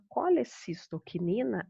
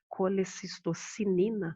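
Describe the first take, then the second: First: The ending is said with a k sound. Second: The ending is said with an s sound. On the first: "mas a gente pronuncia quinina no final" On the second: "tá escrito aqui, ó, colecistocinina"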